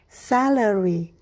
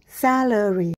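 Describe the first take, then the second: The two takes are said the same way.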